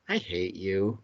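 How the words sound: It is said in an affectionate tone. The anger is softened by the delivery. "look affectionate and say"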